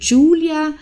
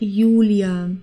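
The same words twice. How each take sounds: First: The name begins with an English J sound. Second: The name begins with a Y-like sound. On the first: The speaker calls it wrong. "also nicht wie im Englischen oder in anderen Sprachen wie Julia" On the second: The speaker calls it right. "das ist einfach Julia"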